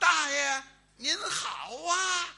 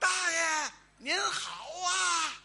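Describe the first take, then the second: First: The greeting is said louder. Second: The greeting is said at normal, quieter volume.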